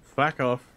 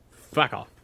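First: Stern, louder fuck off again; firm and final. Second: Stern, louder fuck off. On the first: Player telling enemies off, stern and louder. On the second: Player telling enemies off sternly, louder. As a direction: put your foot down firmly. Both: Retold or imitated. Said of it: "give them a stern-voiced".

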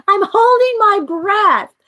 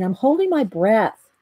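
First: High, slow, loud and laughing; hammed-up repeat of her own defence, cracking up; laughing mock retort. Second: Said in the usual way. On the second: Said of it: "I said".

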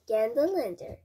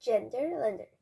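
First: "Ganderlander" with an A as in "gander"; corrected name. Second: "Genderlander" with an E as in "gender"; mispronounced name. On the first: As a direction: say "Ganderlander", opening like the word "gander". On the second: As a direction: say "Genderlander", first vowel as in "hen". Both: Real, not acted. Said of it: "Sorry, Ganderlander".

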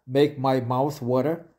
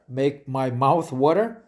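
The two takes are said the same way.

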